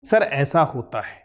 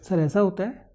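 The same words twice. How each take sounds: First: The voice falls to a firm, concluding end. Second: The voice rises at the end like a question. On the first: The answer is stated with confidence. The speaker calls it right. "उत्तर को confidence के साथ concluding tone में बोलिए" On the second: The speaker seeks the listener's approval of the answer. The speaker calls it wrong. "बजाय ऐसा"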